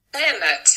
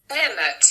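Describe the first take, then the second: Both takes have the same delivery.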